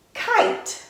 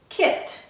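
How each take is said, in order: First: "kite" with a long i; long vowel. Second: "kit" with a short i; short vowel. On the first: Teacher reads the magic E word with the class, long vowel. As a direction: say "kite" with the i sounding like "eye". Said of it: "makes that I say its long". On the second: Teacher reads the next word with the class, short vowel. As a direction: say "kit" with a quick, lax i as in "sit". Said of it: "going to be a short". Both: Shown as a demonstration.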